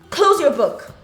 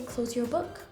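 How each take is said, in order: First: It is said with an angry, forceful tone. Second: It is said in a calm, neutral tone. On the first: A strong emotion is attached to the command. "the way I've said it, with anger, with a strong emotion" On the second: No strong emotion is attached to the command. "there's no strong emotion attached to it"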